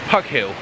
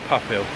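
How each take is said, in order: First: The name is said with a hard g sound. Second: The name is said with an f sound. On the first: The speaker calls it wrong. "I think that's Pug Hill. But it's not" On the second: The speaker calls it right. "it's pronounced Puff Hill"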